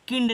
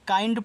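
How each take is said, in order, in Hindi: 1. स्वर छोटी 'i' ध्वनि है। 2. स्वर लंबी 'eye' ध्वनि है। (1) "किंड नहीं पढ़ना है" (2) "काइंड पढ़ना है"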